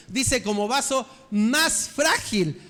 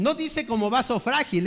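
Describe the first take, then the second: First: "más" pressed and the phrase slowed; stress on más. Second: Said in the usual way. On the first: Shown as a demonstration. Preacher correcting the verse, stressing "más". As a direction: lean hard on "más" and slow down.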